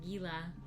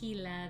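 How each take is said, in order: First: The word begins with a hard G sound. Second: The word begins with an H sound. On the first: The speaker calls it wrong. "you'll hear me calling it Gila, and then I was corrected" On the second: The speaker calls it right. "The G is pronounced like the H sound because it's Spanish"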